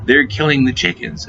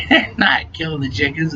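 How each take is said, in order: First: A touch of alarm, half-hearted; urgent wake-up warning. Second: Drowsy mumble, lightly acted; sleepy. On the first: Retold or imitated. Girlfriend wakes him up, mild urgent warning. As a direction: imitate her shaking him awake. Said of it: "by shaking me and going". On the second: Half-asleep guy dismisses girlfriend, mock sleepy. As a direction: roll over and brush it off sleepily. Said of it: "I was all sleepy and shit".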